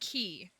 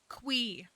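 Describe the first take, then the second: First: The name sounds like the word key. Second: The name begins with a kw sound. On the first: "I say mister Key because it's Q I" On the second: "Concerned Ape said Quee. And that's just wrong"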